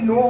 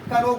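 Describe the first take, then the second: First: The word starts with an n sound. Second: The word starts with a k sound. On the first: The speaker calls it right. "यहाँ पे नो हो रहा है" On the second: The speaker calls it wrong. "कनो बोलते हैं... ये कनो मी नहीं हुआ"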